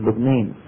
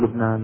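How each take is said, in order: First: The second vowel is fronted toward ee. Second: The second vowel is an open aa sound. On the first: "يميلون إمالة كبرى" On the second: "ما يقولوا لبنان"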